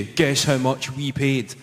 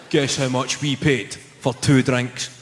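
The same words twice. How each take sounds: First: Irate tone. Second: Plain smug question. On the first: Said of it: "in an irate tone". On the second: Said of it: "They just say". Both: Retold or imitated.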